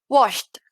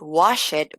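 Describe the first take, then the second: First: The ending is a short T sound. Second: The ending is pronounced as a separate syllable. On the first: The speaker calls it right. "voy a decir" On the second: The speaker calls it wrong. "En lugar de decir"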